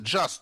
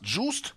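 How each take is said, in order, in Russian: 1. Гласный — открытый звук, похожий на 'a'. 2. Гласный — огубленный звук, похожий на 'oo'. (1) "Вместо «just»" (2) "они говорят"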